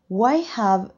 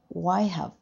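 First: The word 'have' is said in full. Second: The word 'have' is reduced and weakened. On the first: "Why have becomes" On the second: "becomes why have"

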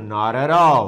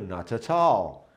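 First: Each t becomes a quick r-like tap. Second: Each t is said as a clear t. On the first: "Mas o norte-americano ... T com vogal, vira R" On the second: "O inglês britânico, ... ele pronuncia o T"

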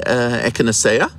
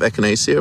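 First: It is pronounced with a Dutch pronunciation. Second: It is pronounced with an English pronunciation. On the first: "they would say ekanasea" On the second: "Instead of echinacea"

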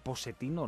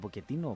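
First: The middle consonant is an s sound. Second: The middle consonant is a k sound. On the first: "Λέγεται Ποσετίνο" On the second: "λέγεται Ποκετίνο"

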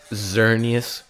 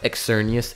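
First: The first syllable sounds like 'zur'. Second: The first syllable does not sound like 'zur'. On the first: The speaker calls it right. "it's Xerneas. Z-U-R-R-neas" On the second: The speaker calls it wrong. "Xerneas is not"

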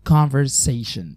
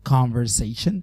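First: It is said with an American accent. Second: The same.

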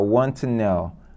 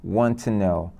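First: The two t sounds merge into one. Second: The two t sounds merge into one.

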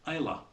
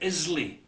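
First: The word has neither an S nor Y. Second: The word is said with an S sound. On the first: The speaker calls it right. "It's Islay" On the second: The speaker calls it wrong. "Do not say Islay. No S involved"

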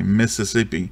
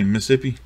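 First: It is said with a Northern pronunciation. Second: It is said with a local Mississippi pronunciation. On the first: "most Northerners say it, they say Mississippi" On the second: "like we say Mississippi, the proper way to say it"

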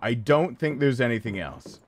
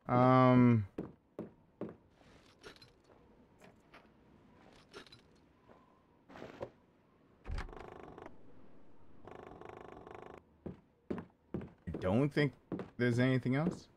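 First: It is said firmly, with conviction. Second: It is said hesitantly, without conviction.

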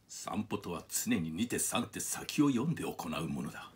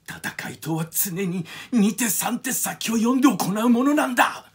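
First: The voice is calm, smooth and evenly paced. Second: The voice is lighter and younger sounding. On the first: "まあシャアが言えば、これ池田秀一さんのモノマネなんですけど" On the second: "これがこの同じセリフをもしアムロが言ったら、古谷徹さんですよね"

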